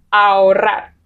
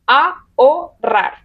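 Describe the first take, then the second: First: Said in the usual way. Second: Ahorrar said slowly as a-ho-rrar, vowels apart; slow split syllables on Ahorrar. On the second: Shown as a demonstration. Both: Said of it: "Se separan".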